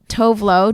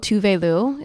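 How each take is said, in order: First: The name is said as two short syllables. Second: The name is said as three syllables. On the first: The speaker calls it wrong. "I've been saying it wrong this entire time" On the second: The speaker calls it right. "is the correct pronunciation"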